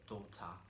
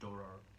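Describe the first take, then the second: First: The T is clearly pronounced, British style. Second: The T is softened, American style. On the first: "in British, they say" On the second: "they don't pronounce the T"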